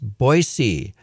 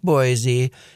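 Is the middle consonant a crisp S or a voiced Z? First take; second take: crisp S; voiced Z. First: The middle consonant is a crisp s sound. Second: The middle consonant is a voiced z sound. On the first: The speaker calls it right. "Let's aspirate the S. ... it's Boise" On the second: The speaker calls it wrong. "It's not Boise"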